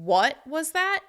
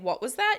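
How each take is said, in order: First: The word 'what' gets extra stress. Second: No word gets extra stress. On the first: The listener heard something a bit rude. "you're bringing extra stress to the word what" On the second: It is a plain request to repeat. "Instead of saying"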